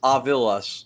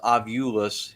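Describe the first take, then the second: First: The second vowel sounds like 'ih'. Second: The second vowel sounds like 'oo'. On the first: The speaker calls it right. "It's Ovilus, O V I L U S" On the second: The speaker calls it wrong. "ninety nine percent of the public says Ovulus"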